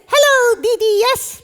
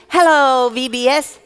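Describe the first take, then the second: First: Put-on high-pitched childlike puppet voice; excitable little puppet, way up high; puppet character. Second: Said in the usual way. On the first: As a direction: squeak it out loudly, muddling the consonants. Puppet echoes the host.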